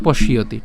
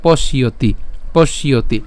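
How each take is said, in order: First: পশ্যতি run together as "poshiyoti"; joined pronunciation. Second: পশ্যতি split as "posh, iyo-ti"; broken-down pronunciation. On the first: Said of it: "আর একসাথে উচ্চারণ করলে". (পশ্যতি একসাথে উচ্চারণ) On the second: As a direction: say পশ্যতি in separated parts. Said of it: "আমরা উচ্চারণ যদি এটা করি". (পশ্যতি ভেঙে, "পশ্ ইয়তি") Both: Shown as a demonstration.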